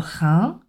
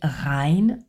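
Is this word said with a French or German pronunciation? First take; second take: French; German. First: The word is said with a French nasal vowel. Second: The word is said with a German diphthong. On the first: The speaker calls it right. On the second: The speaker calls it wrong.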